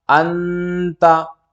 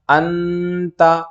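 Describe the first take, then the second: Both takes have the same delivery.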